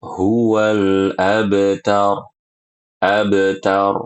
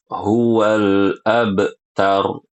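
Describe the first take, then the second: First: Abtar with a small echo on the ba, slow; light qalqalah on ba. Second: Huwal abtar with the ba clipped off; ba cut off, wrong. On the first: Teacher showing the correct qalqalah. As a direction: let the ba in abtar bounce lightly. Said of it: "Yang benar". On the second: Teacher showing the wrong broken qalqalah. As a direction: stop the ba in abtar abruptly. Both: Shown as a demonstration.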